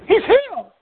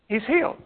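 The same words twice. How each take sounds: First: High-pitched, louder exclamation; excited echo. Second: Said in the usual way. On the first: Acted. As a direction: exclaim the news in a much higher voice. Quotes the man echoing the news.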